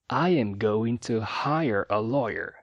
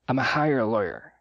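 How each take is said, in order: First: Every word is said fully, with no reductions. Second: 'I am going to' is shrunk to 'I'm a'. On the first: "sem reduções e de forma bem enunciada" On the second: "Ou ainda mais reduzida"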